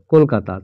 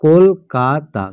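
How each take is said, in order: First: Said in the usual way. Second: Kolkata slowly, as কল, কা, তা; syllable by syllable. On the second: Shown as a demonstration. Teacher shows three syllables in one word, Kolkata split as কল-কা-তা. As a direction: pause after each syllable of Kolkata. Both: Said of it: "তিনটে syllable পাচ্ছি".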